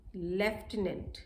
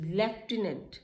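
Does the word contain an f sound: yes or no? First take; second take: yes; yes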